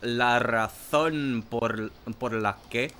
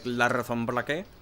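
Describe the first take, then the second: First: It is said very slowly. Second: It is said at normal speed.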